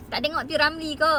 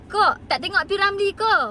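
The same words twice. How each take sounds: First: Said in the usual way. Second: Louder and higher, teasing the critics; mocking retort. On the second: Real, not acted. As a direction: fire the question back with a jab. Retorting at critics, then repeating. (sindiran kuat dan tinggi)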